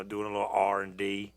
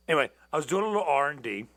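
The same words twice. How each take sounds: First: Said in the usual way. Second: Rattled off fast, louder; quick restart. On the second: Real, not acted. Restarting the story quickly for viewers. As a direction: hurry back into the story after a stumble.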